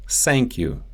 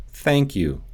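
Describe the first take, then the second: First: "Thank" said as sank; Russian S for TH in "Thank you"; Russian accent. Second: Said in the usual way. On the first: Shown as a demonstration. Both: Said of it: "The T H sound".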